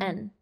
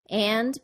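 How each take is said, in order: First: The word is reduced to a short n sound. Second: The word is said fully with a clear vowel.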